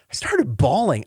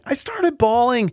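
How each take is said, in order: First: Said in the usual way. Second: High, slow, emotion breaking through; choked up, voice climbing. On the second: Real, not acted. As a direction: let the tears rise into the words. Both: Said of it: "I cry over everything".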